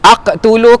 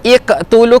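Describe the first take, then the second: First: The word begins with an a vowel. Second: The word begins with an i vowel.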